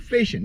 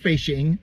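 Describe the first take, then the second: First: The word ends in 'in' without a g sound. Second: The word ends with a full 'ing' sound. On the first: The speaker calls it right. "we drop a G and we say it smooth and cool" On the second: The speaker calls it wrong. "We don't say fishing"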